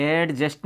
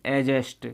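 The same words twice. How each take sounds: First: "एडजस्ट" with the D pronounced before J; wrong D-sounded pronunciation. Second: "एडजस्ट" with no D, like a-jest; silent D. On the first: Teacher shows learners what to avoid, "एडजस्ट" with audible D. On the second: Teacher models the correct word for learners, "एडजस्ट" with silent D. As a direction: drop the D in "एडजस्ट". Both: Shown as a demonstration. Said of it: "नहीं बोलेंगे".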